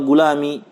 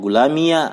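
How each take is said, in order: First: The word ends in a short 'i'. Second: The word ends with an added 'a' vowel. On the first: The speaker calls it right. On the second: The speaker calls it wrong.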